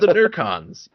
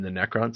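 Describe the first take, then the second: First: The first syllable has an added R sound. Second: The first syllable has no R sound. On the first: The speaker calls it wrong. "would just suddenly drop an R into Necrons" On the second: The speaker calls it right. "You mean the Necrons?"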